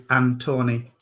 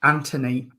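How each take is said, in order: First: Antoni with a long middle O, an-TOE-nee; Antoni without H. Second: Anthony said with a plain T, AN-tuh-nee; Anthony with T sound. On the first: Host explaining his name's spelling, Antoni as an-TOE-nee. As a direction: say Antoni with a hard T and full O. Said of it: "it's without the H in it". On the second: Host giving his proper name, Anthony as AN-tuh-nee. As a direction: say Anthony the everyday way, short middle vowel. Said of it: "My proper name's". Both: Shown as a demonstration.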